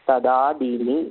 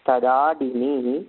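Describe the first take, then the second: The two takes are said the same way.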